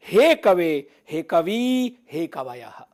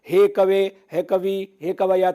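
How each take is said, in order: First: "हे कवे, हे कवि, हे कवयः" in separate phrases, long vowels held; stressed long vowels. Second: "हे कवे, हे कवि, हे कवया" run together with short vowels; long vowels lost. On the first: Teacher modelling clear Sanskrit recitation, "हे कवे, हे कवि, हे कवयः" with long vowels drawn out. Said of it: "इस तरह से आप कर सकते हैं". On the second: Teacher showing learners unstressed vocatives, "हे कवे, हे कवि, हे कवया" with short vowels. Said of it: "दीर्घ स्वर ठीक से सुनाई नहीं देगा". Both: Shown as a demonstration.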